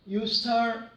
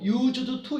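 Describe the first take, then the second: First: The two words run together as one linked sound. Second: The two words are pronounced separately and fully. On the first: The speaker calls it right. "연음으로 연속해서 소리나는 연속음으로" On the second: The speaker calls it wrong. "used to 읽으면 여러분 영어 발음이 잘못된 겁니다"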